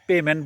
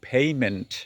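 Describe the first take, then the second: First: The first vowel is a plain e sound. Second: The first vowel glides like ay. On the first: The speaker calls it wrong. "পেমেন্ট বলি না" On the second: The speaker calls it right. "উচ্চারণ পেইমেন্ট"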